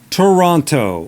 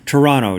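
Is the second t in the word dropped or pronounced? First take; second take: pronounced; dropped. First: The second t sound is clearly pronounced. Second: The second t sound is dropped.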